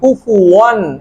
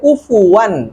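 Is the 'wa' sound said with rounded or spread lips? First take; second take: rounded; spread. First: The 'wa' sound is said with rounded lips. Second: The 'wa' sound is said with spread lips. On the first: The speaker calls it wrong. "অনেক সময় আমরা ঠোঁট গোল করি, কুফুয়ান, এটা ভুল।" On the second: The speaker calls it right. "দুই ঠোঁট প্রসারিত হয়ে যাবে, গোল থাকবে না।"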